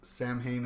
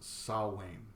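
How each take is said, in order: First: It is said as 'Sam Hain', with m and h. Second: It is said as 'sow-wain', without m or h. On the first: The speaker calls it wrong. "people that say Sam Hain is the incorrect way to pronounce it" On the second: The speaker calls it right. "some people say it's supposed to be pronounced Sawain"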